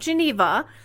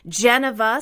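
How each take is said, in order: First: The stress is on the second syllable. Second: The stress is on the first syllable. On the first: This is the familiar name, not the suggested one. "Not Geneva" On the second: This is the new name being suggested. "stressing the first syllable"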